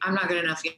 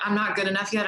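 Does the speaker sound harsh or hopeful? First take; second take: harsh; hopeful. First: The tone is harsh and self-critical. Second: The tone is hopeful and encouraging. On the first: The speaker is putting themselves down. The speaker calls it wrong. "I'm such a piece of shit" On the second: The speaker is motivating themselves to keep going. The speaker calls it right. "there's a very different tone to that"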